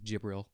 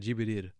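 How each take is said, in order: First: The name is said with an English pronunciation. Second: The name is said with a Japanese pronunciation. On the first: The speaker calls it wrong. "I just cringed saying that" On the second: The speaker calls it right. "a very hard thing to say with a Japanese intonation"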